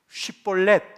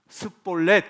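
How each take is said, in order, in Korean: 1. sh 소리로 시작해요. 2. 그냥 s 소리로 시작해요. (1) "쉰 발음이에요" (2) "아이 스볼렛 그러거든요"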